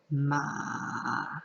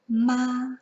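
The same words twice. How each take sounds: First: The pitch dips down then rises again. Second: The pitch stays level and flat. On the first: "Where you start high, you dip down, and then you bring the tone back up" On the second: "It is flat across and literally just spoken out with no intonations"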